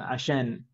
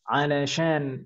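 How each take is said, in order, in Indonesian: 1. Dipotong menjadi satu kata pendek dan cepat. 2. Digabung menjadi satu kata. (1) "ngomongnya lebih cepat, jadi lebih cepat lagi jadinya asyan" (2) "orang-orang mengucapkannya jadi alasyan"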